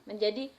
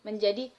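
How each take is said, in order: The two takes are said the same way.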